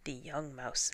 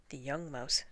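The two takes are said the same way.

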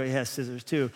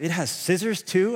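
First: Said in the usual way. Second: Put-on a light childlike voice asking in wonder, rising at the end; amazed little boy asking; imitating three-year-old son. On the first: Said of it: "I go". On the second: Son asking dad about the knife, lightly childlike wonder. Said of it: "He goes".

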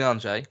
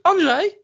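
First: Said in the usual way. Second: High, loud mock yell of a name; imitated angry shout. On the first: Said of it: "She calls me Andrzej". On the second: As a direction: call out like a cross wife, pitched way up. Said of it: "normally it starts with".

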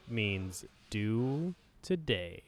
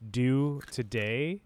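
First: Slow whisper, stress on do; whispered punchline. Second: Drawn out, stress on do; slow emphatic motto. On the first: To the hosts, whispered slow punchline. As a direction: breathe the punchline out. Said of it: "is do today". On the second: To the podcast hosts, slow motto delivery. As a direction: spell out the motto slowly. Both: Shown as a demonstration.

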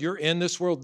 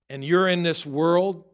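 First: Said in the usual way. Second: Louder, slow, leaning on "you're in this world"; "you're in this world" said slowly and loudly, each word weighted; slow emphatic stress. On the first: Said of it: "repeated phrase, usual delivery". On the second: Acted. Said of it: "preacher repeating for emphasis".

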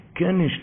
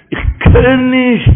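First: Quiet quote. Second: Loud, high, stretched refusal; drawn-out cry. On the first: Retold or imitated. Preacher explaining the grandson's refusal, hushed. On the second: Acted. Preacher voicing the grandson's refusal, high drawn-out cry.

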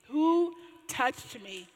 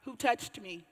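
First: Drawn-out, louder who touched me; slow, louder repeat. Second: Said in the usual way. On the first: Retold or imitated. Jesus insisting to the crowd, slow and louder. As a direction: repeat Who touched me slowly, pressing each word. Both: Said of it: "He's like".

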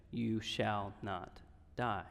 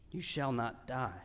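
First: Slow and soft, almost reverent; softer slow pronouncement; hushed solemn quote. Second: Said in the usual way. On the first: Acted. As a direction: lay the promise down gently and slowly. Quoting the Lord through Nathan.

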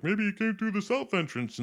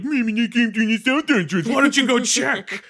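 First: Helpful rebel. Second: Much higher, louder sarcastic parroting; mocking repeat. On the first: Retold or imitated. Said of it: "and they're like". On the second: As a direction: throw their words back at them, annoyed. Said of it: "he's getting pissed off at everybody".

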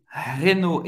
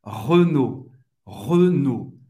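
First: "Renault" with open é, HEH-no; Portuguese-style pronunciation. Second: "Renault" as rø-NO, rounded first vowel; French closed E. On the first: Teacher naming the car brand before correcting it, Portuguese-style vowel. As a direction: say "Renault" with a clear é in the first syllable. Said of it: "Renault em francês é". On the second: Teacher modelling the car brand in French, closed E. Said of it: "O E fechado". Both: Shown as a demonstration.

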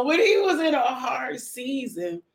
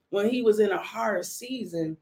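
First: Higher, slow, playful stretch of the phrase; playfully drawn out. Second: Said in the usual way. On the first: Pretend. Joking with the listeners about a hard season, playfully drawn out. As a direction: draw it out high for comic effect. Joking repeat after laughing aside.

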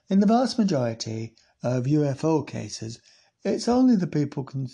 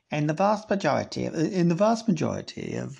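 First: Put-on Sheffield-ish accent. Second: Devon accent attempt. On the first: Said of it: "that's more like Sheffield". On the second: Shown as a demonstration. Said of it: "I can't believe I'm not doing a Devon accent".

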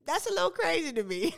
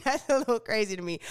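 First: Surprised. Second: Laughs then says it quickly; amused, quick laughing remark. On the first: Reacting to shocking news. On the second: Laughing reaction to the news. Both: Real, not acted.

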